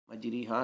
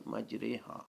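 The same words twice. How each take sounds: First: مجری ہا with "ee" after the r; the rejected reading "majree-haa" of مجری ہا; wrong "ree" vowel. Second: مجرے ہا with "ay" as in قطرے; tilted "ray" vowel. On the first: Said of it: "مجری ہا نہیں". (مجری ہا میں ری کی آواز) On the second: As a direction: softly correct it to "majray-haa", مجرے ہا. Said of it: "کی را کی طرح پڑھیں گے". (مجرے ہا میں قطرے جیسی رے) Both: Shown as a demonstration.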